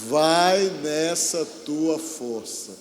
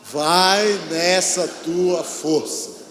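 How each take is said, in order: First: It is said weakly and softly. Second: It is said strongly and loudly.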